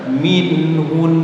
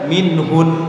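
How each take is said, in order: First: The final nasal hum is held fully. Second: The final nasal hum is cut short. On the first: The speaker calls it right. "Tetap didengungkan. Yang benar minhun" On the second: The speaker calls it wrong. "jangan dibaca minhun, tidak boleh dibaca seperti itu"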